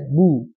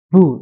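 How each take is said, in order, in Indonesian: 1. Bunyi b dilepas biasa, tanpa hembusan napas tambahan. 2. Bunyi b dilepas dengan hembusan napas yang kuat. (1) "Jadi biasa saja" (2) "terlalu banyak apa namanya? Hembusan"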